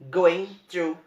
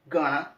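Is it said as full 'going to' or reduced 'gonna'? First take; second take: full; reduced. First: Both words are said fully and separately. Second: The words blend into the reduced form 'gonna'.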